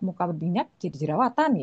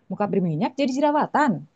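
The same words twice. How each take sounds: First: The voice rises at the end, like a question. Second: The voice falls at the end, like a statement. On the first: It asks the listener something. "bisa bertanya juga" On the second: It tells the listener something. "bisa ngasih tahu juga"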